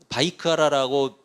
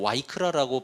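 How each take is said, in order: First: The word begins with a v sound. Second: The word begins with a w sound. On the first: "바이크라라고 발음도 하고" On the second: "또 와이크라라고 발음도 하기도"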